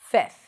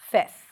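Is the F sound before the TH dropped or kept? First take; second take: dropped; dropped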